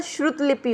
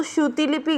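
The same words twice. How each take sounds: First: श्रुत लिपि with no i after t: shrut lipi; correct pronunciation. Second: श्रुति लिपि with an added i: shru-ti lipi; wrong pronunciation. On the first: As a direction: end the first word of श्रुत लिपि on a bare t. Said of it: "श्रुत लिपि होता है". (श्रुत लिपि में "त" पर रुकें) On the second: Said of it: "गलत होता है". (श्रुति लिपि में "ति" बोलें) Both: Shown as a demonstration.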